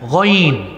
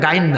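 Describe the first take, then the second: First: The letter name is said with a heavy sound. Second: The letter name is said with a thin sound. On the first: The speaker calls it right. "মোটা অক্ষর" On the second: The speaker calls it wrong. "এটা গাইন না"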